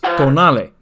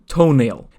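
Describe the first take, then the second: First: The name is pronounced like 'tonale'. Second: The name is pronounced like 'toenail'. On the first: The speaker calls it right. "It's tonale" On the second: The speaker calls it wrong. "not toenail"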